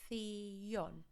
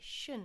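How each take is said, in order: First: The ending is said with a 'th' sound. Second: The ending is said with a 'sh' sound. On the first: The speaker calls it right. "we need to pronounce every single letter" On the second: The speaker calls it wrong. "students have a tendency to say shun again"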